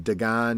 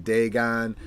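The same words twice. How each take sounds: First: Dagon said duh-GAHN, weak first vowel; one possible pronunciation. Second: Dagon said DAY-gahn, long first vowel; alternative pronunciation. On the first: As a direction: say Dagon as duh-GAHN, open second syllable. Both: Shown as a demonstration. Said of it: "pronunciation. Is it Dagon?".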